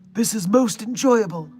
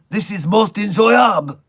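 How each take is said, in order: First: It is said without a French accent. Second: It is said in a French accent. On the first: The speaker calls it wrong. "I forgot the French accent" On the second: The speaker calls it right. "the French accent"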